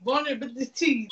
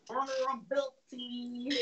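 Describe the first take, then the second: First: Vulnerability through clenched teeth, pissed off; through your teeth. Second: Through your teeth. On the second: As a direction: hiss Vulnerability through clenched teeth. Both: Shown as a demonstration. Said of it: "That's how you gotta say through your teeth".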